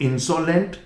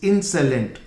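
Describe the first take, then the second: First: The middle vowel is a full 'o' sound. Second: The middle vowel is a reduced 'uh' sound. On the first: The speaker calls it wrong. "It's not इंसोलेंट" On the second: The speaker calls it right. "It's इंसेलेंट"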